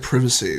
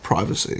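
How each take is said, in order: First: It is said with a British pronunciation. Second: It is said with an American pronunciation. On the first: "when British people say privacy" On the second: "instead of privacy"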